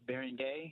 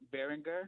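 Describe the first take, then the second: First: The name ends with an 'ay' sound. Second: The name ends with an 'er' sound. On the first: "Maybe it's Beringay. I mean, my, my French is not the best" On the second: "maybe I'm pronouncing it wrong"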